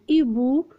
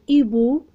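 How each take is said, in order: The two takes are said the same way.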